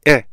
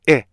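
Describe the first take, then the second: No difference in how they are said.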